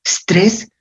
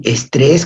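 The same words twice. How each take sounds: First: Estrés said as the English stress, with no e- at the start. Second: Estrés, with a plain Spanish e- at the start and stress on the last syllable; estrés castellanizado. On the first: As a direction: drop the opening e and say estrés as stress. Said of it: "todavía se decía estrés". (estrés pronunciado como el inglés stress, sin e inicial) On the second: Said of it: "estrés con acento". (estrés pronunciado a la española, con e inicial) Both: Shown as a demonstration.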